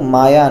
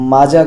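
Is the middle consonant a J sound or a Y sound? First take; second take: Y sound; J sound. First: The middle consonant is a Y sound. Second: The middle consonant is a J sound. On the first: The speaker calls it right. "మాయా అని పలకాల, German pronunciation" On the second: The speaker calls it wrong. "మాజా కాదు"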